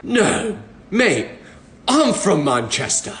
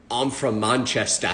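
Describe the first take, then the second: First: Put-on British accent. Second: Put-on slow, lower, softer British accent; fake British accent. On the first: Stranger replies in a British accent. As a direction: answer back with a Mancunian British accent. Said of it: "they were like". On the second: Bluffing to the stranger in a fake British accent. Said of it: "I kept pretending to be British".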